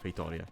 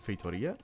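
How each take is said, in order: First: Feitoria read the Italian way, stress on RI. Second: Feitoria read the English way, stress on TO. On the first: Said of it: "with my Italian voice". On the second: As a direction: say Feitoria as an English speaker would. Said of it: "my English voice". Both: Shown as a demonstration.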